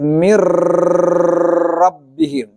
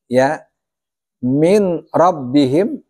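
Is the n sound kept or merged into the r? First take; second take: merged; kept. First: The n merges fully into the r. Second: The n is pronounced before the r. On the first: The speaker calls it right. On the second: The speaker calls it wrong.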